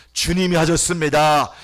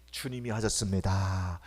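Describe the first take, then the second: First: Louder second take. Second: Soft first take. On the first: Pastor repeating to congregation, 주님이 lifted and louder. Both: Acted. Repeated phrase, soft then loud.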